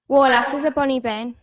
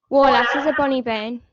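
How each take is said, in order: Both takes have the same delivery.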